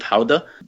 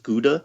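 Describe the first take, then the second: First: It is said with the local Dutch pronunciation. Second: It is said with the usual American pronunciation. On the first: This is how the locals say it. The speaker calls it right. "but they pronounce it Gouda" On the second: This is how the speaker assumed it was said. The speaker calls it wrong. "I always thought it was Gouda"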